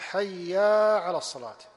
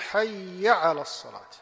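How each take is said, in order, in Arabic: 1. تنتهي الكلمة الأولى بحركة طويلة. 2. تنتهي الكلمة الأولى بحركة قصيرة. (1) "بعض المؤذنين يقول حيا على الصلاة، طبعا ما فيها ألف، فهذه زيادة حرف" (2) "المشروع أن يقول حيا على الصلاة، ما يأتي بألف"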